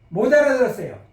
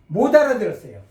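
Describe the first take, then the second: Both takes have the same delivery.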